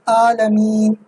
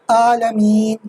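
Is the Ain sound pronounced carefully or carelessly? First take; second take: carelessly; carelessly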